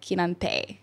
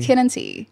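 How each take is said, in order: First: The name does not end like 'tea'. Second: The name ends with a sound like 'tea'. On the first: The speaker calls it wrong. "I thought your name was like Kinante" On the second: The speaker calls it right. "just like the drink"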